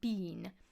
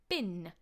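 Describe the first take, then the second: First: The vowel is a long ee sound. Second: The vowel is a short i sound. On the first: The speaker calls it wrong. "not bean" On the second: The speaker calls it right. "will be bin"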